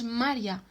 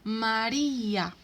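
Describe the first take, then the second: First: The i and a merge into one syllable. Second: The i is stressed, split from the a. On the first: The speaker calls it wrong. "No decimos María" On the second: The speaker calls it right. "sino María"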